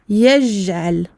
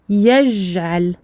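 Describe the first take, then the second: Both takes have the same delivery.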